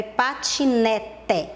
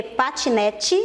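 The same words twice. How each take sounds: First: "patinete" slowly, ending in a clear TE; drawn-out spelling pronunciation of "patinete", hard final te; said as written. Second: "patinete" ending in a chee sound; natural spoken ending on "patinete", E turned to I; read as spoken. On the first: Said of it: "mas a gente escreve patinete". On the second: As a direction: say "patinete" as pa-chi-NE-chi, final E like I. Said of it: "a gente lê patinete". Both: Shown as a demonstration.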